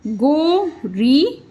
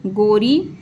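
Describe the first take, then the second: First: Slow sounding out. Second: Said in the usual way. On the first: Shown as a demonstration. Teacher sounding out गोरी slowly for pupils. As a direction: stretch गोरी very slowly, rising at the end. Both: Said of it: "ई का sound मिला इसमें".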